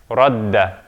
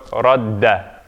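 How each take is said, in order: Both takes have the same delivery.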